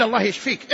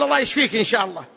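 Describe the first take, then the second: First: Short, definite get-well prayer; resolute prayer. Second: Quick, casual get-well wish; noncommittal prayer. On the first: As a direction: say it as a settled plea. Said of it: "اعزم". (دعاء بعزم) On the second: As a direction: rattle off the wish without resolve. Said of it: "لا تستثني". (دعاء سريع بلا عزم) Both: Shown as a demonstration.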